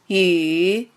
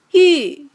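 First: The pitch dips low, then rises. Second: The pitch falls sharply from high to low. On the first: "三声拐弯" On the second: "四声降"

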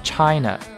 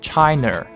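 First: The ending has no r-coloring. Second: The ending is pronounced with a curled r. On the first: The speaker calls it right. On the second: The speaker calls it wrong.

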